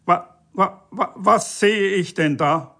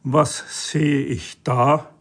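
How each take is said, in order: First: High stammer bursting into outrage; sputtering bellow. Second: Slow, measured disbelief; taken aback. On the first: EU official discovers a violation, sputtering in outrage. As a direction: stutter on the first word, pitched up. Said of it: "brüllte der E-U-Beamte". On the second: Officer stops short at a new find, taken aback. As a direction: stretch each word in mild astonishment. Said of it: "stutzte er". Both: A narrator's reading.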